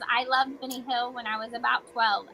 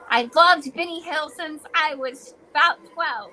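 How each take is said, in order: First: It is read flatly, without feeling. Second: It is read with lively, expressive feeling.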